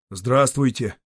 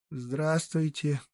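First: Said in the usual way. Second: Quiet, slow, lightly cheerful hello; soft nasal greeting. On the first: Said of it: "повторила женщина". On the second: A narrator's reading. Bedridden mother answers the guest, soft and slow. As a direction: greet back softly through the nose. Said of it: "Её гнусавый голос звучал негромко, но бодро".

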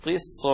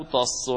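First: "طص" said as tiss, with i and no t; careful demonstration of "طص" as tissun; dropped final ta, kasra. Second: "طص" said as tass, with a and no t; careful demonstration of "طص" as tassun; dropped final ta, fatha. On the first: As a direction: say "طص" with kasra and a doubled hissed s. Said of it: "وبإسقاط التاء". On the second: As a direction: say "طص" with fatha and a doubled s. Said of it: "وبفتحها وبإسقاط التاء". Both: Shown as a demonstration.

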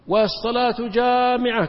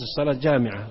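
First: Slow, louder, higher call; summoning the crowd to prayer, drawn out; mock call to prayer. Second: Said in the usual way. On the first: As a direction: call out والصلاة جامعة like a crier. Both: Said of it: "يصيح صايح".

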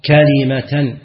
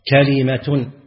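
First: "كلمة" said as kalimatan, with nasb; accusative kalimatan. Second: "كلمة" said as kalimatun, with raf'; nominative kalimatun. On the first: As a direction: give "كلمة" the accusative ending. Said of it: "كلمة بالنصب". ("كلمةً" بالنصب) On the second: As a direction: give "كلمة" the nominative ending. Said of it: "ويجوز الرفع". ("كلمةٌ" بالرفع) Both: Shown as a demonstration.

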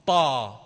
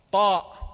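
First: "طا" as a long open vowel, no glottal stop; hamza dropped. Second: "طاء" with a firm final glottal stop; loud "طاء", cut off by the hamza; hamza pronounced. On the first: Teacher showing the Prophet's recited form, hamza dropped. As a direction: let "طا" fall away without any hamza. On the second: Teacher naming the letter in full, hamza pronounced. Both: Shown as a demonstration. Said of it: "ما الذي حذف؟".

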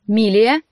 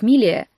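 First: Louder call of Милия with a rise; warning call. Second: Said in the usual way. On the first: Acted. Brother calling his sister sharply, louder. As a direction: call out Милия to stop her. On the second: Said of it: "ends her retort by name".

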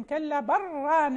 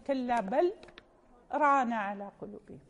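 First: بل ران run together, the لام absorbed into a doubled راء, a bit slower; slow, louder كلا بل ران with the لام merged into ران. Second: بل held with a clear لام, then a brief pause before ران; light stop after بل. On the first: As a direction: say بران with a stressed double ر, no pause. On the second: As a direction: separate بل from ران with a tiny silent break. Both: Shown as a demonstration. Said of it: "أما الذي يصل فهو يدغم".

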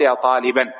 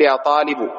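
First: "طالبا" ending in -an; indefinite vocative ending. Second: "طالب" ending in a short u; definite vocative ending. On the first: Teacher calling any student at all, "طالبا" ending in -an. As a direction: say "طالبا" as taliban, with tanween. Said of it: "ما تريد طالبا معين، تقول". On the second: Teacher addressing one particular student, "طالب" ending in -u. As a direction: say "طالب" as talibu, final damma. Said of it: "إذا كنت تتكلم مع طالب معين". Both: Shown as a demonstration.

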